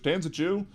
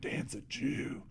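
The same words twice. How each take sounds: First: It is said in a flat, neutral tone. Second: It is said in a disgusted, contemptuous tone. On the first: It simply states a fact. The speaker calls it right. "there's no inflection or tone difference with it" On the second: It is meant to promote hatred. The speaker calls it wrong. "ew, ... that use of that word then becomes negative"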